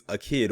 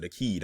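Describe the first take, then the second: First: Akid, second syllable rhyming with "lid"; Akid with short i. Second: Akid, second syllable rhyming with "need"; Akid with long ee. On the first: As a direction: say Akid like "a kid". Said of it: "or is it Akid?". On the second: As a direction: say Akid as "a keed". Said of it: "I'm not sure". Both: Shown as a demonstration.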